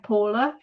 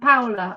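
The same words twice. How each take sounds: First: The name is said with an English pronunciation. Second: The name is said with a Dutch pronunciation. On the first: "In England, I'm Paula" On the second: "In the Netherlands, I'm Paula"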